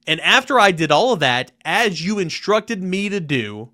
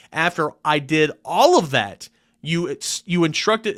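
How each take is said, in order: First: Louder start, after pressed, then slowing right down; added emphasis. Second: Slow, pressing each word, tripping on you; stumbling over the emphasis. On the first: Rereading the letter's line to the NCAA, clean and emphatic. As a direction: restart clean, hitting after and as hard. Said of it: "Trying to add emphasis". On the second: Fumbling the letter's key line with heavy emphasis. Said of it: "I'm stumbling over my words". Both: Shown as a demonstration.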